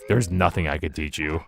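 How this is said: It sounds exasperated and dismissive.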